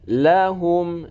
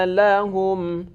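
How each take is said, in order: No difference in how they are said.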